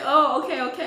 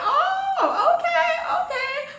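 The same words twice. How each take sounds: First: Said in the usual way. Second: Squeaky high laughing oh okay; high-pitched giggling disbelief. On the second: Retold or imitated. Retelling shock at the kiss.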